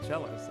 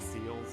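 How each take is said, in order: First: The name has two syllables, starting with ch. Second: The name sounds like the word seals. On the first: The speaker calls it right. "or even Chelis" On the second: The speaker calls it wrong. "my pronunciation as a child of, of C E L E S being seals"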